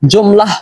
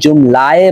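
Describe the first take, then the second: First: The word ends with a final 'h' sound. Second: The word ends with an added 'eh' vowel. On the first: The speaker calls it wrong. "জুমলাহ হওয়ার কথা নয়" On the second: The speaker calls it right. "এটা এখানে জুমলায়ে ব হওয়ার কথা"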